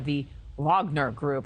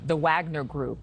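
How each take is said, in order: First: Wagner is said with a foreign accent. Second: Wagner is said in a plain English way.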